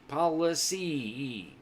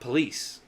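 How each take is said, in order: First: The word is said with three syllables. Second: The word is said with two syllables. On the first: The speaker calls it right. "It's a three-syllable word" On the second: The speaker calls it wrong. "Not police"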